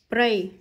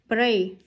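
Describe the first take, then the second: Both takes have the same delivery.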